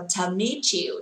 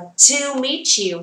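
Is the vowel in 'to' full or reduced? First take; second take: reduced; full. First: The word 'to' is reduced to a light 't'. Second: The word 'to' has a full vowel. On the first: The speaker calls it right. "đọc là to meet you, cho nó hay" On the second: The speaker calls it wrong. "không đọc là to meet you"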